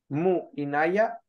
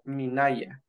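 First: The u is kept before inaya. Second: The u is dropped and the words merge. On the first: The speaker calls it wrong. "Si lo probara con mu, no queda bien" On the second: The speaker calls it right. "le tengo que quitar la u y decir minaya"

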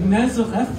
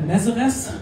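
First: The name is pronounced the original English way. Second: The name is pronounced the German way. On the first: This is the correct pronunciation of the name. The speaker calls it right. "wenn man richtig das aussprechen will" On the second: This is how people in Germany usually say it. The speaker calls it wrong. "In Deutschland sagt man gerne Nazareth"

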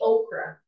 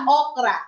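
First: The word is said with an English pronunciation. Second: The word is said with a Filipino pronunciation. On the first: "Ganda na lang yung pronunciation" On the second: "di ba very Tagalog? Very Filipino"

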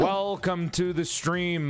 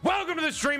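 First: It is spoken very slowly and drawn out. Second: It is spoken at an ordinary pace. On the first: The speaker calls it wrong. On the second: The speaker calls it right.

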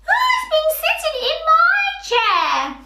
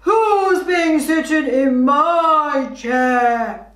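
First: It is said in a squeaky Baby Bear voice. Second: It is said in a deep Daddy Bear voice.

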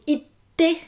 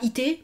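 First: The t sound is held long, doubled. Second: The t sound is short, single. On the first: The speaker calls it right. "il y a le petit sou pour dire itte" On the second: The speaker calls it wrong. "C'est pas ite"

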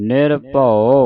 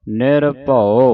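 No difference in how they are said.

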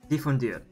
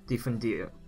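First: The final R is strongly enunciated. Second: The final R is lightly pronounced. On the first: The speaker calls it wrong. "I need to reduce the how much I'm enunciating the R at the end" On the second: The speaker calls it right. "Like that?"

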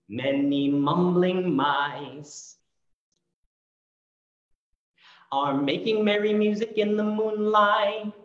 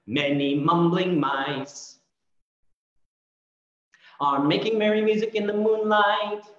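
First: The line is said at a slower pace. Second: The line is said at a faster pace.

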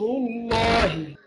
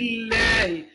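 First: The L is pronounced heavy and thick. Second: The L is pronounced light and thin. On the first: "اللام تفخم" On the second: "مرقق"

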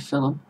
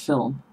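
First: An extra vowel sound comes between L and M. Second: No vowel sound comes between L and M. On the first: This is how people say it where the speaker grew up. "where I come from, we say film" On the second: This is the standard pronunciation. "there is no U between the L and the M"

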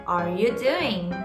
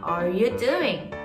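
Both takes have the same delivery.

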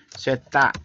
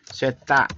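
First: The word is shortened to two syllables. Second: The same.

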